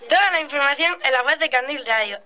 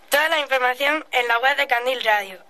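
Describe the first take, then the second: First: It is said with more energy. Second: It is said with little energy.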